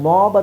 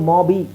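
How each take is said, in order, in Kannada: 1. ಪದ 'b' ಶಬ್ದದ ಮೇಲೆಯೇ ಚುರುಕಾಗಿ ಮುಗಿಯುತ್ತದೆ. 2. ಪದದ ಕೊನೆಯಲ್ಲಿ ಹೆಚ್ಚುವರಿಯಾಗಿ 'ee' ಶಬ್ದ ಸೇರುತ್ತದೆ. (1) "ಮಾಬ್ ಅಂತ ಹೇಳೋಕ್ಕೆ" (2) "ನೀವು ಇಲ್ಲಿ ಬಿ ಹೇಳಬೇಕಂದ್ರೆ ಮಾಬಿ ಅಂತ ಹೇಳಬೇಕಾಗುತ್ತೆ. ಅದು ಆಗೋದಿಲ್ಲ"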